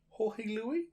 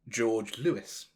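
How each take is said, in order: First: The name is said with non-English pronunciation. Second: The name is said with English pronunciation. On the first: The speaker calls it right. "maybe is how you pronounce it" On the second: The speaker calls it wrong. "the most English way I could have pronounced his name ever"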